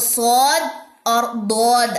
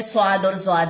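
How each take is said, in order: First: The second name starts with a d sound. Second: The second name starts with a z sound. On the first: "अरबी ... इसकी जो प्रोनाउंसिएशन है, वो स्वाद और दौद आएगी" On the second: "उर्दू एक्सेंट में स्वाद और ज्वाद है"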